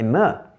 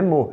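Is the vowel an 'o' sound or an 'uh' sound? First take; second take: uh sound; o sound. First: The vowel is an 'uh' sound, as in cut. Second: The vowel is an open 'o' sound. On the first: The speaker calls it right. "é ma" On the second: The speaker calls it wrong. "não é mo"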